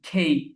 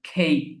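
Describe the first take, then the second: First: The letter is said as a breathy 'khei'. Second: The same.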